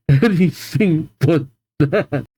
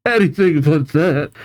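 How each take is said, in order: First: Slow, drawn-out mock begging; dramatic plea. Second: Said in the usual way. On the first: Shown as a demonstration. Reader mock-begging not to hear yell again, slow. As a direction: plead it slowly like a melodrama.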